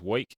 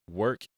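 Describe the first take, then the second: First: "wake" with an "oy" vowel, like "woyk"; Bugs Bunny-like pronunciation. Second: Said in the usual way. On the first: Retold or imitated. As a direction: say "wake" as "woik", no r. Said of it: "he sounds like Bugs Bunny". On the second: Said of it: "certain words that Richard says".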